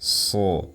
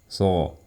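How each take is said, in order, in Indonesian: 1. Bunyi ini dibuat dengan napas yang terdengar. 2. Bunyi ini dibuat tanpa napas yang terdengar. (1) "Harus terdengar suara nafas" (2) "Jangan melafalkan huruf shad tanpa ada terdengar suara nafas. Kayak gini misalkan"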